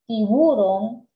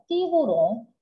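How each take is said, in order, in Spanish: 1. El acento va en la sílaba del medio. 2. El acento va en la última sílaba. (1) "el acento la llevara en la U" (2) "tiburón lleva su mayor fuerza de voz en la última sílaba"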